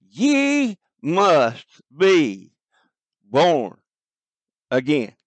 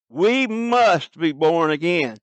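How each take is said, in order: First: Very slow, each word set apart with long pauses; emphatic, drawn out. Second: "must" hit hardest, slowed delivery; stress on must. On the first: Preacher reading Jesus' words to listeners, slow and emphatic. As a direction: lay the words down one by one, with weight. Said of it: "We hear a great emphatic here". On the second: Preacher driving the point home to the congregation, stress on "must". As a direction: lean on "must" to make it a demand. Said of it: "an emphatic". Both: Shown as a demonstration.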